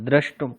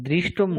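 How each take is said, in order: First: The first syllable is said as 'dra'. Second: The first syllable is said as 'dri'. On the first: The speaker calls it right. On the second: The speaker calls it wrong. "দৃষ্টুম না"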